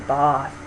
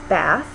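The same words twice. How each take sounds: First: It has a back vowel, like ah. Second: It has a front vowel, as in cat. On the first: "It sounds sort of very poncy and British if I say it that way" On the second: "in American English, is pronounced bath um, with the a vowel"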